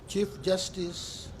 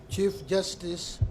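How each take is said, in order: Both takes have the same delivery.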